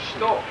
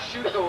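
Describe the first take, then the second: First: The vowel after the sh is nearly silent. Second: The vowel after the sh is clearly pronounced. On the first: The speaker calls it right. "the U is relatively silent" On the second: The speaker calls it wrong. "like most Americans pronounce"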